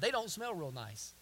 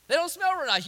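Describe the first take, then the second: First: Said in the usual way. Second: Higher and louder, "smell" punched; stress on smell. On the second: Shown as a demonstration. Preacher repeating the line to the congregation, stressing smell.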